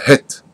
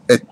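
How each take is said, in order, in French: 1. Le mot commence par un son h. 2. Le mot commence directement par une voyelle. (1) "On ne dit pas het" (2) "on dit et. C'est un aleph"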